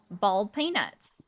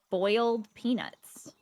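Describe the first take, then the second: First: "bald peanuts." slow, boiled as BAWLD, PAY-nuts; Southern "bald peanuts." with no OY sound; Southern pronunciation. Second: Put-on "boiled peanuts." slow and clear, BOYLD PEE-nuts; careful, slow "boiled peanuts." with OY and EE; standard pronunciation. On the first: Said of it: "some people in the South say". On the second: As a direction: spell out "boiled peanuts." with a full OY. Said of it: "It's boiled peanuts". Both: Shown as a demonstration.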